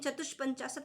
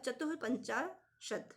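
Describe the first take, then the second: First: An 'sh' sound comes before 'panchashat'. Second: A breathy 'h' sound comes before 'panchashat'. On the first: The speaker calls it wrong. "चतुष्पंचाशत नहीं" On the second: The speaker calls it right. "विसर्ग का जो sign होता है, वो लगा होगा"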